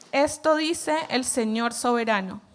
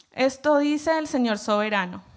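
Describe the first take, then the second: The two takes are said the same way.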